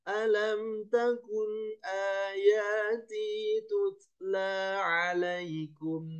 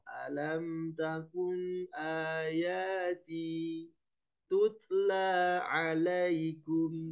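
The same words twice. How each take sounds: First: The phrase is said in one unbroken stretch. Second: The phrase is broken into short pieces with pauses. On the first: The pieces are joined back into the whole verse. "baru sambungkan nanti" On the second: The long verse is split to manage breath and focus. "dipendek-pendek boleh"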